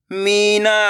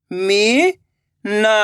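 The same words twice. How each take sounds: First: Said in the usual way. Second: Very slow, each syllable drawn out; slow syllable reading. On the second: Shown as a demonstration. Teacher reading to children, drawing out every syllable slowly. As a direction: spell the word out slowly, syllable by syllable. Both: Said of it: "तो मिलके बन जाएगा".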